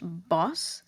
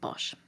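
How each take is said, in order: First: The name ends with a plain s sound. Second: The name ends with an sh sound. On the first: "Bosch is actually pronounced Boss" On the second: "for the sake of familiarity, I'm just going to keep pronouncing it Bosch"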